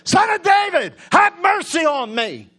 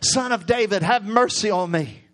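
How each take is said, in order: First: It is said at a louder volume. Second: It is said at a softer volume.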